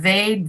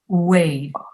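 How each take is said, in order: First: The word begins with a buzzing V sound. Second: The word begins with a rounded W sound. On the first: The speaker calls it wrong. "Instead of vade" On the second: The speaker calls it right. "pronouncing oo"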